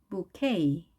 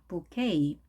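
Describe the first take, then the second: The two takes are said the same way.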